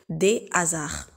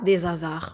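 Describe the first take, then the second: First: The final S is not linked to the next word. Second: The final S is linked to the next word. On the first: The speaker calls it right. "On dit des hasards. ... c'est une liaison interdite" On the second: The speaker calls it wrong. "On ne dit pas des hasards"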